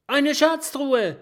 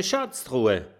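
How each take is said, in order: First: High, loud, thrilled call of Schatztruhe; excited shout. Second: Said in the usual way. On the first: A narrator's reading. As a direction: burst out with delight at the find. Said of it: "ruft das Stachelschwein begeistert". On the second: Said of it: "Kokosnuss klopft auf die Kiste und sagt".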